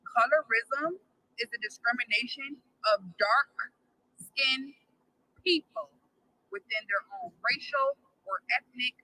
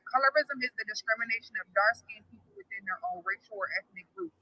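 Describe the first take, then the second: First: It is said more slowly. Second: It is said at a normal pace.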